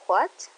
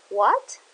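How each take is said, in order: First: "What?" again with a quick rising question tune; clipped surprised "What?" climbing upward. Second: "What?" said loud with a steep rising question tune; a surprised "What?" that swoops up. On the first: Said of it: "close to second tone". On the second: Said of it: "What is going up to?". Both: Shown as a demonstration.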